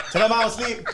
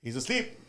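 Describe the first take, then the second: First: Loud, high mimicked holler; raised voice, calling out an excuse. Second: Softer, understated imitated doorman; quiet relay. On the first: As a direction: imitate someone hollering from the next room. Repeats the called-out punchline. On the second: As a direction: pass the message on quietly, as if deadpan. Doorman relays the shouted message quietly.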